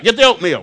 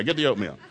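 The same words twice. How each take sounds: First: Exasperated shouted command; loud order. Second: Said in the usual way. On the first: Retold or imitated. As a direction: Get the oatmeal shouted high and loud. Repeated order, loud take.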